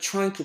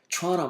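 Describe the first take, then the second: First: Each word is pronounced separately and fully. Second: The words run together with the sounds reduced. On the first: "나는 trying to 발음하는데" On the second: "저 선생님은 trying 막 이렇게, 해. 우와, 연음"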